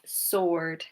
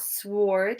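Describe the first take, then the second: First: The W is silent at the start. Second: The W is pronounced at the start. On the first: The speaker calls it right. "so the W is silent" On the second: The speaker calls it wrong. "it's not sword"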